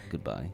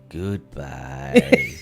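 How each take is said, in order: First: It is said short and abrupt. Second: It is drawn out, long and soft.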